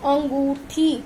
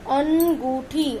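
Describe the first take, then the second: First: Said in the usual way. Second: अनगूठी said slowly, syllable by syllable, with the nasal अं clearly through the nose; nasal sound drawn out. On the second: Shown as a demonstration. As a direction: stretch out अनगूठी slowly and let the अन ring nasally. (अनगूठी को धीरे-धीरे बोलें, अं की आवाज़ नाक से) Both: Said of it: "इसका उच्चारण नाक व मुंह से होता है".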